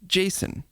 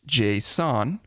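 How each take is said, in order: First: It sounds exactly like the name Jason. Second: It does not sound like the name Jason.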